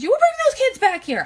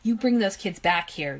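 First: It is screamed in a shrill, high voice. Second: It is said in a plain, calm voice.

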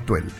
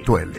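First: The name ends without a final e vowel. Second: The name ends with a final e vowel. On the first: The speaker calls it wrong. "no Tuele" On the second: The speaker calls it right. "se le agrega la E al final"

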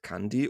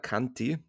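First: The middle consonant is a soft d. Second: The middle consonant is a hard t.

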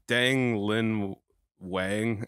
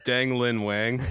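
First: The name is said at a slower pace. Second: The name is said at a faster pace.

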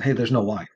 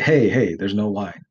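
First: It is said as a calm statement of fact. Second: It is said in a nagging, insistent tone.

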